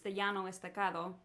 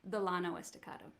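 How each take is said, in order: First: It is said with a Spanish pronunciation. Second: It is said with a Texan pronunciation.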